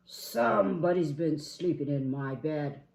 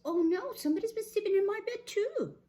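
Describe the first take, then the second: First: Loud, indignant big bear; Papa Bear. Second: High, fast, alarmed bear; Mama Bear. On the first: Papa Bear at his bed, indignant boom. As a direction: boom out the accusation. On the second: Mama Bear at her bed, high alarm. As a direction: exclaim it high, loud and quick. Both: Acted.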